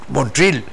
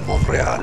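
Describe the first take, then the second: First: The name is pronounced the American English way. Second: The name is pronounced the French way. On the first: This is how people in the United States say it. "en Estados Unidos lo, lo estarían pronunciando" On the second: This is how Canadians say it. "los canadienses han respetado la, la estructura francesa"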